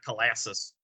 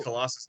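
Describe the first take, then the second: First: "Colossus" with a "lass" in the middle; Colossus with short "a". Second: "Colossus" with an open "ah" in the stressed middle. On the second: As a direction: say "Colossus" as kuh-LAH-sus. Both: Shown as a demonstration. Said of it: "not Colossus".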